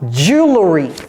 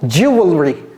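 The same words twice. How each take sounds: First: It is said in the common casual way. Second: It is said literally, following the written form. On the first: The speaker calls it wrong. "quatre-vingt-dix-neuf pour cent des Américains le prononcent mal. Ils disent quoi?" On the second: The speaker calls it right. "Littéralement"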